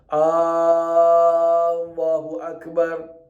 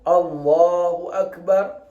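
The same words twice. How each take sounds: First: A sound outside the l of Allah is lengthened. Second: Nothing is lengthened; it is said quickly. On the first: The speaker calls it wrong. "Lain daripada tempat itu tak boleh dipanjangkan" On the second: The speaker calls it right. "Dia boleh masuk niat secepat gitu"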